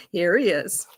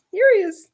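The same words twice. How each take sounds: First: Said in the usual way. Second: High, loud welcome for the dog; happy high pet voice; excited dog greeting. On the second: Real, not acted.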